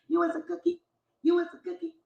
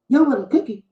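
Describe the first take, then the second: First: Much softer sing-song jab; hushed taunt. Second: Said in the usual way. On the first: Acted. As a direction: drop to a quiet taunt. Repeating the insult.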